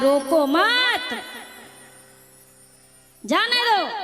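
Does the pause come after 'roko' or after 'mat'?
after mat. There is a pause right after 'mat'.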